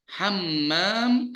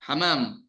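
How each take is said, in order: First: The m sound is long and doubled. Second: The m sound is short and single. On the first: It means bathroom. The speaker calls it right. "kamar mandi" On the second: It means pigeon. The speaker calls it wrong. "Kalau syaddahnya dihapus, jadi apa?"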